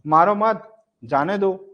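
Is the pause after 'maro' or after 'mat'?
after mat. There is a pause right after 'mat'. The other person should not be hit.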